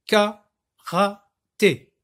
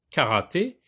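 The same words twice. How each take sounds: First: Karaté very slowly as KA, RA, TÉ; loud, higher beats with long pauses in Karaté; three sound units. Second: Said in the usual way. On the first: Shown as a demonstration. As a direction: break Karaté into three separate syllables. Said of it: "j'ai prononcé le mot en trois unités de son". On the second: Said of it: "lorsque je veux découper".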